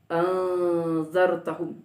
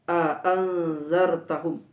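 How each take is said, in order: First: The second glottal stop is softened. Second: Both glottal stops are pronounced clearly. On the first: "dan mentashilkannya" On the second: "dengan menegaskan dua hamzah"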